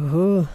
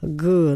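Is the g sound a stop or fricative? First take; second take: fricative; stop. First: A soft fricative g, southern style. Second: A hard stop g, northern style.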